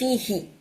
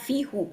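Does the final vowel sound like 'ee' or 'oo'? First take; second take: ee; oo. First: The pronoun ends with an 'ee' vowel. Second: The pronoun ends with an 'oo' vowel. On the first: The speaker calls it right. "আমি বলতেছি ফি হি" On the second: The speaker calls it wrong. "তখন আমি বলতেছি না ফি হু"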